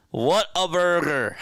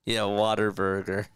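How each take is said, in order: First: High, loud South Jersey Whataburger; hammed-up South Jersey twang; South Jersey accent. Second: Said in the usual way. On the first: Shown as a demonstration. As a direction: belt What a burger in thick South Jersey. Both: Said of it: "It's my South Jersey accent".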